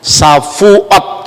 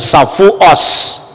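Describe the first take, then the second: First: The word ends with a clear t sound. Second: The word ends with an s sound. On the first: "Misalnya kalau ngomong Safuot" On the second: "dia tidak bisa ngomong huruf T, tapi mengucapkan Safuos"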